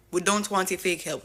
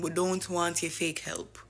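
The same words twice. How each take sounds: First: Louder, emphatic refusal; insistent imitating of a leader's rebuke; louder defiant repeat. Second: Slow, firm refusal; measured imitating of a defiant leader; defiant quote. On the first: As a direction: hit it harder the second time. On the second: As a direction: lay it down slowly and firmly. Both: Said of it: "and saying".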